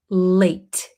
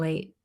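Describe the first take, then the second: First: The final T is clearly and strongly released. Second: The final T is swallowed, barely heard. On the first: The speaker calls it wrong. "We don't pronounce it late" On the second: The speaker calls it right. "So here we kind of swallow this T"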